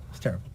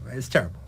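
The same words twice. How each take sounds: First: "It's terrible" repeated much softer, under the breath; a quiet afterthought repeat; softer echo. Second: Said in the usual way. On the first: Retold or imitated. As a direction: let the second "It's terrible" fall away quietly.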